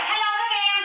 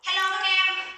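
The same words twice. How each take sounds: First: High, loud "Hello các em" as a muffled voice; muffled voice demo. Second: Higher, pinched "Hello các em"; muffled voice demo. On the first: Teacher demos a muffled sound to the class, high. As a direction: squeeze the voice like a voice changer. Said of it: "muffled sound nó sẽ là". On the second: Teacher shows students a muffled voice again. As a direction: pretend a voice changer garbles you. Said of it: "Bây giờ chị nói các em bình thường". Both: Shown as a demonstration.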